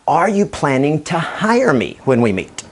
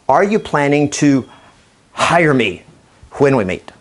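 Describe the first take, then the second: First: It is said in an inviting, confident tone. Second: It is said in a demanding, intimidating tone.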